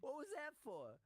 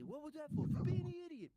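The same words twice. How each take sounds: First: Very high mock mob voice; imitating Josh in the sketch. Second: Very high, louder mob voices; sketch exchange. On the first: Retelling the sketch, very high mob voice. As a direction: ask it in a high gangster squeak. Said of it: "he goes". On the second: Retold or imitated. Final take of the sketch, very high and louder. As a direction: fire both lines in high gangster voice. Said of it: "I hit him".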